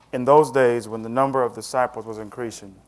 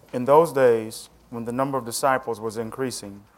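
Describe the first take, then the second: No difference in how they are said.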